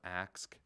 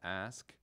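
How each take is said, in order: First: The word ends with the k then s sounds. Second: The word ends with the s then k sounds.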